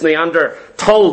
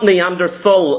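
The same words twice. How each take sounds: First: The 'th' is said as a hard T sound. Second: The 'th' is said as a soft TH sound. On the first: The speaker calls it right. "the word Neanderthal is a silent H. it's Neanderthal" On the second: The speaker calls it wrong. "It's not Neanderthal"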